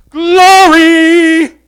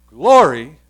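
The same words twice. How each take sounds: First: GLORY belted out high and very long; far greater glory. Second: GLORY said short, with a firm push; lesser glory. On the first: Preacher showing the greater glory, high booming drawn-out "glory". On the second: Preacher comparing two glories, short emphatic "glory". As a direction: stress "glory" briefly, held well below a shout. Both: Shown as a demonstration. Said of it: "The degrees of glory".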